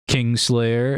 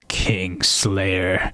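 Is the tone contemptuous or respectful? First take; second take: respectful; contemptuous. First: It is said in a respectful tone. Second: It is said in a contemptuous tone. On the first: The speaker honors the person for the deed. "with respect" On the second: The speaker scorns the person for the deed. "you have like contempt in your voice"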